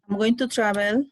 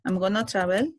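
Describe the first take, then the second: First: Going to is said in full, each word clear. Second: Going to is shortened and run together as gonna. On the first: It is the standard, neutral form. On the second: It is very informal.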